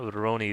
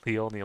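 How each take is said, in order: First: It starts with an English-like R sound. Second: It starts with an L-like sound. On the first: The speaker calls it wrong. "It's not Roroni" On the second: The speaker calls it right. "like like the L sound"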